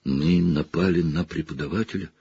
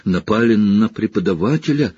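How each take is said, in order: First: Soft, rising disbelief; girl horrified after attacking a teacher. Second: Put-on girl repeating it in horror; horrified. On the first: Acted. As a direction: gasp it out in shock. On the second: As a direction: sink into dread. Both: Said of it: "в ужасе шептала Гермиона".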